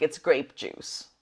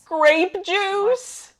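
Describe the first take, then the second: First: Said in the usual way. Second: High, puzzled rising question; surprised question. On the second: Real, not acted. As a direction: ask it high in disbelief.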